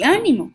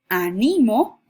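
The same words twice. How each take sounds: First: The stress is on the first syllable. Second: The stress is on the middle syllable. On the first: "como esdrújula" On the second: "como grave"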